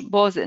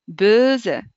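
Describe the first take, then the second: First: بوزة with a plain o vowel, the mistaken way; بوزة with an ordinary o, not the ö; wrong pronunciation. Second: بوزة said slowly with a rounded ö, as in böse; بوزة drawn out with the German ö vowel; German ö sound. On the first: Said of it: "ناين، فالش". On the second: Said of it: "فوقها دو بوان ولات أو في النطق". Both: Shown as a demonstration.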